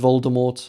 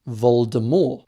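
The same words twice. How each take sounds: First: The final T is sounded. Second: The final T is silent. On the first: This is the pronunciation most people learned. "They pronounced it as Voldemort" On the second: This is the original French-style pronunciation. "with a silent T"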